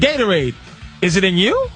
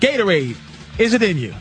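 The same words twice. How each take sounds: First: The voice rises at the end like a question. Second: The voice falls at the end like a statement.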